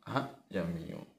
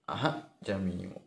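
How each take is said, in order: The two takes are said the same way.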